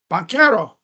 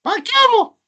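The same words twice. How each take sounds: First: Said in the usual way. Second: Banchero squeaked much higher; high squeaky repeat. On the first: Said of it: "Banchero said twice". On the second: Shown as a demonstration. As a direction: say Banchero again way up high, playful. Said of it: "Banchero repeated in a put-on voice".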